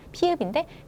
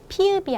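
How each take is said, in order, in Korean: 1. 첫소리는 f 소리예요. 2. 첫소리는 그냥 p 소리예요. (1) "윗니를 아랫입술에 댔다가 떼는 그 F 발음" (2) "피읍이 아니라"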